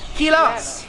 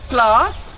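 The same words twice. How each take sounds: First: The consonant cluster is broken up. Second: The consonant cluster is said intact. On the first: The speaker calls it wrong. "not class" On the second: The speaker calls it right. "we say class"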